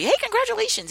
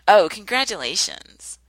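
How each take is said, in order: First: It sounds warm and sincerely meant. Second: It sounds grudging, jealous and not meant.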